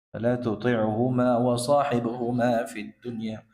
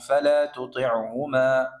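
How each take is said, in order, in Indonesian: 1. Bacaannya terus tanpa jeda setelah tuti'huma. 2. Bacaannya berhenti dengan jeda setelah tuti'huma. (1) "Kalau dibaca bersambung itu lebih utama" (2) "bisa juga berhenti"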